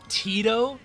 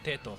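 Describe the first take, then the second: First: The name is said with an anglicized vowel sound. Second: The name is said with the Japanese vowel sound. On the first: The speaker calls it wrong. "If anyone's saying Tito, you need to put him down" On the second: The speaker calls it right. "that's how it's pronounced in Japanese"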